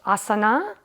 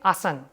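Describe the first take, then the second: First: The word ends with a final vowel sound. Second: The final vowel is cut off, northern Indian style.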